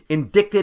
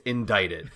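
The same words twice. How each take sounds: First: The middle syllable sounds like 'dick'. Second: The middle syllable sounds like 'dite'. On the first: A crude sexual pun, not the legal term. The speaker calls it wrong. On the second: Formally charged with a crime. The speaker calls it right. "When we're talking about legal issues, it's indicted"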